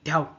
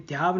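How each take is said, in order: First: ध्याव as one quick, short syllable; short, rapid ध्याव; quick reading. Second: ध्याव with a long, stretched vowel; ध्याव said slowly and long; drawn-out wrong reading. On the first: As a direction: say ध्याव fast without stretching it. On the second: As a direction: stretch ध्याव out as the mistake to avoid. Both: Shown as a demonstration. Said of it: "इसको तेज पढ़ना है".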